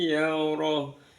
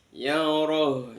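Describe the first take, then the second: First: The word stops short on the final h sound. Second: The word stops short on the final h sound.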